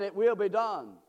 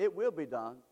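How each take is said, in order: First: Louder, insistent repeat; firm, loud proclamation; emphatic restatement. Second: Low-pitched, settled statement; low, matter-of-fact promise; low assurance. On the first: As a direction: drive it home forcefully. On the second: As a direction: lower the voice and state it as certain. First take, quiet assurance. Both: Real, not acted.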